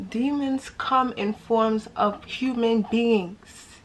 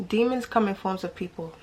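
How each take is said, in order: First: Slow emphatic. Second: Said in the usual way. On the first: Real, not acted.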